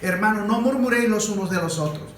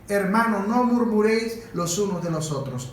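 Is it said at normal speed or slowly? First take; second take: normal speed; slowly. First: It is said at normal speed. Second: It is said slowly, little by little.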